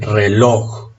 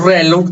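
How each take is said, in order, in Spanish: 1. La tónica está en la última sílaba. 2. La tónica está en la primera sílaba. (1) "son agudas" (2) "también la palabra sería grave o llana"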